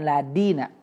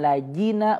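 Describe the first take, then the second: First: The middle consonant is a d sound. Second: The middle consonant is a j sound. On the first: "illaladina jadi dal" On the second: "illallajina jadi jim"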